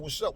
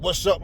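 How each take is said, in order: First: It sounds casual and warm, like a greeting. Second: It sounds confrontational, like a challenge.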